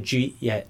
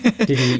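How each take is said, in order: First: The first words are squeezed into one syllable. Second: Each word is said clearly and separately. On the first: "I would probably say jeet yet" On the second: "I speak so proper"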